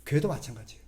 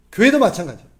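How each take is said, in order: First: Said in the usual way. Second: "교회도" hit loud and firm; emphatic repeat. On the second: Shown as a demonstration. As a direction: say "교회도 마찬가지예요" again, louder, driving it home. ("교회도"에 힘을 주어 크게 반복) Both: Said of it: "repeated louder".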